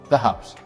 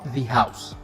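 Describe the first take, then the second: First: 'The' uses its usual before-consonant pronunciation. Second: 'The' uses its usual before-vowel pronunciation. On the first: The speaker calls it right. "Starts with h, consonant, so this is the" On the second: The speaker calls it wrong. "not the house"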